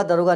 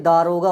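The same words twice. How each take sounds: First: दरोगा with short first "da"; wrong short vowel. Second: दारोगा with long opening "daa"; long first vowel. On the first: Teacher showing the common mistake, short-vowel दरोगा. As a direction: say दरोगा quickly as da-ro-ga. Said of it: "हम गलती से बोलते". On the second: Teacher correcting the common mistake, long-vowel दारोगा. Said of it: "दरोगा नहीं". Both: Shown as a demonstration.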